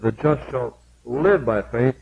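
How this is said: The word "live" is stressed.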